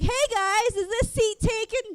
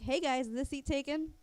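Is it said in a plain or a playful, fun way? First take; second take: playful; plain. First: It is said in a playful, fun way. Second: It is said in a plain, ordinary way.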